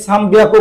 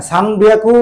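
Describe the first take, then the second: First: সান বিয়াকু with m in place of n, "sambiaku"; pronounced with m. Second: সান বিয়াকু with a clear n before the b; pronounced with n. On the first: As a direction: close the lips on সান before বিয়াকু, "sam-biaku". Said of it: "সান বিয়াকুর মতো উচ্চারণটাও আসে". (সান বিয়াকু-তে ন-এর জায়গায় ম উচ্চারণ) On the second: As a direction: keep the n distinct in সান, "san-biaku". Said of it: "এন এর উচ্চারণ বললেও সমস্যা নাই". (সান বিয়াকু-তে স্পষ্ট ন উচ্চারণ) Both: Shown as a demonstration.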